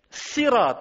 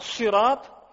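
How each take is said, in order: First: The s sound is plain and light. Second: The s sound is emphatic and heavy. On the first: "met een sin" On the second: "met een saad"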